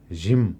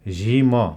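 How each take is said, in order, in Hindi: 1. अंतिम म की ध्वनि छोटी करके बोली जाती है। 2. अंतिम म की ध्वनि पूरी तरह बोली जाती है। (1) "मलाई छोटो हुने गरेर" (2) "रातोमा लेखेको झैँ झिम भनेर उच्चारण नगरी"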